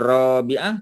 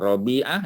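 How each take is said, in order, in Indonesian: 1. Vokal pertama itu panjang. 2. Vokal pertama itu pendek. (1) "Kalau ra panjang Rabi'ah tu perempuan" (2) "Rabi'ah ni lelaki"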